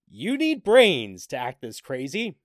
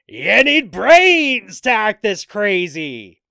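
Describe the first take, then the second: First: It is read flatly, without excitement. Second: It is read loudly, with excitement.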